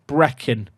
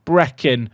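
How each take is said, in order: Both takes have the same delivery.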